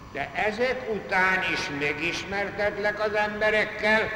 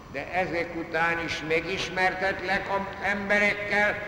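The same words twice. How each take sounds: Both takes have the same delivery.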